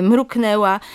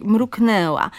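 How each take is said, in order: First: MRUKNĘŁA with plain oral e, as mrukneła; careful oral vowel. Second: MRUKNĘŁA slow, with a full nasal ę before ł; overliteral nasal ę. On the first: Linguist shows the model form, oral e in "mruknęła". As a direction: drop the nasality in "mruknęła". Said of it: "to jest wymowa staranna". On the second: Linguist demonstrates the error, slow nasal ę in "mruknęła". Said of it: "nadmiernie literowa wymowa". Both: Shown as a demonstration.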